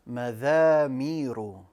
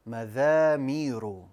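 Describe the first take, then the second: First: The second consonant sounds like 'th' in 'this'. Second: The second consonant sounds like 'th' in 'this'.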